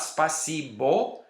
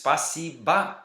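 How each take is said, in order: First: The final vowel is a clear 'o' sound. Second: The final vowel is an 'a' sound. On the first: It is read the way it is spelled. The speaker calls it wrong. "it's not spasibo" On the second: It is said the way native speakers say it. The speaker calls it right. "it's spasiba, even though it's written spasibo"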